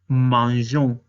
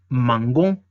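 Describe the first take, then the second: First: The middle consonant is a soft zh sound. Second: The middle consonant is a hard g sound. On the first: The speaker calls it right. "se le agrega una E muda y se dice nous mangeons" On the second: The speaker calls it wrong. "si no estuviera esta E, diría mangon"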